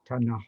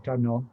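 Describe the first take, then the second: First: It is said in a west Malay pronunciation. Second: It is said in a northeast Malay pronunciation. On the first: "west pronunciation, which would be Tanah" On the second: "that would be a specifically northeast Malay, Patani or Kelantan pronunciation"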